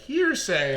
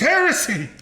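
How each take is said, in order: First: It is said like the word hearsay. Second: It is said like the word heresy. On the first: The speaker calls it wrong. "people were reading it as hearsay" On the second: The speaker calls it right. "it's heresy"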